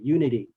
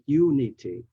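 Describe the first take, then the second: First: The consonant after 'uni' is a soft D. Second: The consonant after 'uni' is a clear T.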